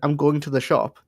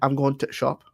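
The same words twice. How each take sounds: First: The word 'the' is said in full. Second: The word 'the' is dropped, northern-style.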